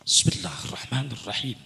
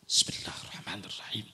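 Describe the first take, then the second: First: The phrase is said at full, normal loudness. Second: The phrase is said softly, under the breath.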